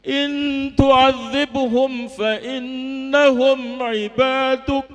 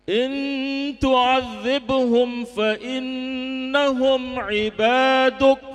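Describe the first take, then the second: First: Weeping harder. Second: Slow, sung Quranic recitation with a hint of weeping; tearful recitation. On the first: Retold or imitated. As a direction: let the crying grow through the verse. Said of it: "Beliau tambah menangis". (membaca ayat sambil makin menangis) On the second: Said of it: "sambil nangis". (lantunan ayat sambil sedikit menangis)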